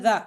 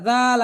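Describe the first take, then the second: First: "জা" with a short vowel, cut off quickly; quick short syllable. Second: "জাল" with the long vowel held for two beats; drawn-out letter name. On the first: Teacher showing the spelled syllable, "জা" said short and quick. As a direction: say "জা" quickly, without stretching the vowel. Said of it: "তাড়াতাড়ি". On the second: Teacher showing how the letter is named, "জাল" drawn out long. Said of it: "আমি কিন্তু টেনে বলেছি". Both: Shown as a demonstration.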